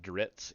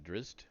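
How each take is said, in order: First: The name ends with a 'ts' sound. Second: The name ends with a 'zt' sound. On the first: "I used to pronounce it Dritz, even though the T comes after the Z's" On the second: "I say Drizzt"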